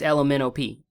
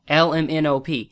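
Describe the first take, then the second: First: The letters blur together into one word. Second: Each letter is said clearly and separately. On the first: The speaker calls it wrong. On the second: The speaker calls it right.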